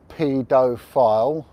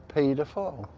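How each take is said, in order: First: "pedophile" said slowly, each syllable fully sounded; articulated. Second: Said in the usual way. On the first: Shown as a demonstration. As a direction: stretch "pedophile" out loud and clear, ending on a rise. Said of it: "I want to articulate". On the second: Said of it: "I will say".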